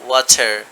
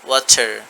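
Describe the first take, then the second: Both takes have the same delivery.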